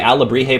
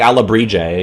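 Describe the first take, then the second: First: The j is said as a breathy h-like sound. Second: The j is said as an English j sound. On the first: "That's because I said it naturally" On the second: "At least I'm not saying, like"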